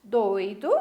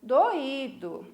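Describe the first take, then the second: First: "Doido" as two syllables, oi glided together; diphthong in "Doido". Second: "doído" as three syllables, stress on the í; hiatus in "doído". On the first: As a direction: read "Doido" stressed on the first syllable, oi as one sound. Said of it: "que vocês lessem comigo". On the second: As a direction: read "doído" with o and í apart, í stressed. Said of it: "e a segunda". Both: Shown as a demonstration.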